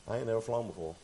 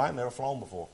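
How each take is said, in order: First: "never" leaned on, softer overall; stress on never. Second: "I" leaned on at the start, rest falling; stress on I. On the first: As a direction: push the word "never". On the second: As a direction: put the weight on "I". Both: Shown as a demonstration.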